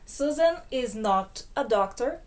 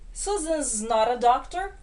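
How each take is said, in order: First: Every word is said in full, without contraction. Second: The verb is joined onto the name as Susan's. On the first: "na forma cheia" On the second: "a primeira forma de contrair com o verbo to be"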